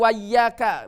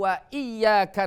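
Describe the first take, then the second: First: The glottal stop before iyyaka is dropped. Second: The glottal stop before iyyaka is pronounced. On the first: The speaker calls it wrong. "Tidak iyyaka na'budu wa iyyaka, bukan" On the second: The speaker calls it right. "Ini baik di awal kalimat maupun di tengah kalimat masih terbaca"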